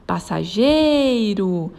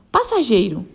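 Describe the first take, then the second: First: Passageiro with GEI stretched long; stress on GEI. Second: Said in the usual way. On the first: Shown as a demonstration. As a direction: call out Passageiro, holding the syllable gei. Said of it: "Ela tem a penúltima sílaba tônica". (passageiro com o gei alongado) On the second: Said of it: "Qual é a sílaba tônica?".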